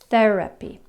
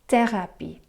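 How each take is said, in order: First: The th sound is soft, tongue between teeth. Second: The th sound is hard, tongue behind teeth. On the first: "In English, we put our tongue between the teeth" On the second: "In French, you put your tongue behind the teeth"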